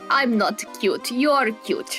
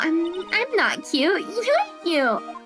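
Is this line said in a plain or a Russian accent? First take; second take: Russian; plain. First: It is said in a put-on Russian accent. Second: It is said in the speaker's ordinary accent.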